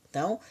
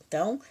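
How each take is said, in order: Both takes have the same delivery.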